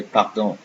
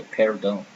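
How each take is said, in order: First: "pardon" with an open "ah" in the first syllable; French "pardon" as pahr-DON. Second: "pardon" with the first syllable like "pair"; "pardon" with an English A instead of "ah"; English-style A. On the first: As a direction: say "pardon" in French, throaty R, nasal ending. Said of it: "See, I say pardon". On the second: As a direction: say "pardon" wrongly as PAIR-don. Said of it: "I don't say pardon". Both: Shown as a demonstration.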